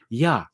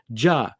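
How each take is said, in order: First: The word begins with a Y sound. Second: The word begins with a J sound. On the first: This is how most people say it. "people will say normally ya" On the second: This is how the speaker's group says it. "And we say ja"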